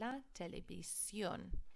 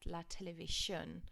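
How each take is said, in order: First: The ending is said with each vowel, 'see-on'. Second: The ending is run together as a 'shun' sound. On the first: The speaker calls it right. "you need to repeat every single vowel sound" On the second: The speaker calls it wrong. "I hope you didn't say la televisión. I shouldn't hear any shins there"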